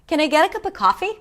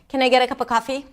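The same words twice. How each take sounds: First: Higher, varied pitch with a softer voice. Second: Low, flat pitch with little variation. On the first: The speaker is being kind. The speaker calls it right. "I use more pitch, my voice is a little softer" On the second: The speaker sounds unfriendly. The speaker calls it wrong. "It may not sound as friendly"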